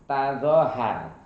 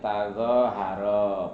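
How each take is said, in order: First: The word ends on the r consonant. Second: The word ends with a final o vowel. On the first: The word is written without a long vowel letter. "Kalau kalau tanpa alif tazohar" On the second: The word is written with a long vowel letter. "kalau ada alif tazoharo Pak"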